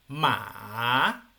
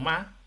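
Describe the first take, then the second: First: The pitch falls and then rises. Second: The pitch falls sharply. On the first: "una pronunciación que baja y luego asciende" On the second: "el tono cuatro"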